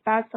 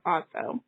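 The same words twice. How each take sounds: First: "Faso" with the a of "fast"; first syllable of "Faso" rhymes with "gas"; short-a pronunciation. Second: "Faso" with the a of "father"; "Faso" pronounced FAH-so; open-a pronunciation. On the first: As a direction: say "Faso" with a short, front a, as in "cat". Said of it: "I think I'm pronouncing it that right". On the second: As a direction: say "Faso" with an open "ah" in the first syllable. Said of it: "I don't know if it's Faso or Faso". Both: Shown as a demonstration.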